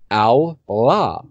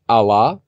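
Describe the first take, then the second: First: The L sound is held long, as if doubled. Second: The L sound is short and single.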